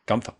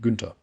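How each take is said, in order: First: The name is said with an American pronunciation. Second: The name is said with a German pronunciation. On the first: "or is it Gun Gunther in American? Gunther probably" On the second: "In German it would be"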